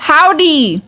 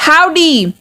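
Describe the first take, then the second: No difference in how they are said.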